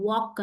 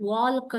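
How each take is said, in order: First: "Walk" said as "wawk", vowel straight into K; silent L. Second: "Walk" said as "walk-uh" with a clear L before K; L sounded. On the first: Teacher giving pupils the correct word, "Walk" with L silent. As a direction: drop the L from "Walk". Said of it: "Walk ಅಂತ ಹೇಳ್ತೀವಿ". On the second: Teacher showing pupils the mistake, "Walk" with an audible L. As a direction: pronounce the silent L in "Walk". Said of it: "ನಾವು pronounce ಮಾಡಲ್ಲ". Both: Shown as a demonstration.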